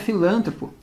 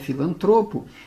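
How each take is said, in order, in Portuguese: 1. A tônica cai na sílaba lan. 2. A tônica cai na sílaba tro. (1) "não é filântropo" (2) "é filantropo. Ela é uma paroxítona"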